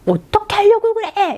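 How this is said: It sounds angry and reproachful.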